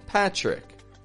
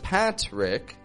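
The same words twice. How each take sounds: First: The T and R blend into a ch-like sound. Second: The T and R are pronounced as separate sounds. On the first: "T and R will come together to make a tr" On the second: "Instead of Patrick"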